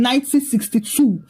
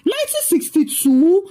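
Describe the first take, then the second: First: Said in the usual way. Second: High rising shocked question; incredulous scream. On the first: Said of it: "with irritation and said". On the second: A narrator's reading. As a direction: throw the year back in disbelief, pitched up. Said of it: "Liz screamed".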